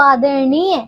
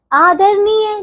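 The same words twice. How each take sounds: First: आदरणीय with retroflex ण. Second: आदरणीय with plain dental n; wrong n sound. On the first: Teacher correcting pupils, आदरणीय with retroflex n. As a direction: curl the tongue in आदरणीय. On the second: Teacher showing wrong आदरणीय with plain n. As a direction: say आदरणीय as aadar-neey. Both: Shown as a demonstration. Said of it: "नहीं बच्चों".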